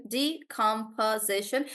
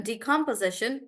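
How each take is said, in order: First: "decomposition" slowly, split as de-com-po-si-tion; syllable by syllable. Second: Said in the usual way. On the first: Shown as a demonstration. Teacher showing how spellers say it, syllable by syllable. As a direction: sound out each syllable of "decomposition". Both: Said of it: "they also do it like this".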